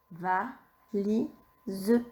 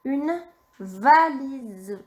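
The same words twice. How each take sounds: First: Softer "Valise" with rising end; soft repeat. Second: "une valise" stretched out very slowly; very slow dictation. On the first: Teacher correcting a dictation, soft echo. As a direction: repeat "Valise" gently to check. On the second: Teacher dictating the last word, very slowly. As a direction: draw out "une valise" for the child to write. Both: Shown as a demonstration. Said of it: "Le dernier mot".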